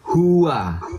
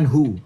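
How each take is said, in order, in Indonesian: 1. Kata itu diucapkan lengkap dengan dua suku kata. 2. Kata itu dipotong menjadi satu suku kata. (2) "Bukan hu"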